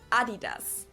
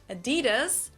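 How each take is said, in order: First: It is said with a German pronunciation. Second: It is said with an American pronunciation.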